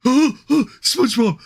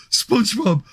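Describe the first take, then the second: First: Slow, high dopey shout; Patrick Star voice. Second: Quicker dopey call, less high; Patrick Star voice. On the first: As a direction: call out like dim Patrick. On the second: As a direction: shout SpongeBob again, brighter. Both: Pretend.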